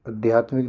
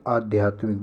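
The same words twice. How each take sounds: First: आध्यात्मिक begun with a short a; short opening vowel. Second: Said in the usual way. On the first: Shown as a demonstration. Teacher quoting the mistake, short first a in आध्यात्मिक. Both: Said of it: "आध्यात्मिक नहीं".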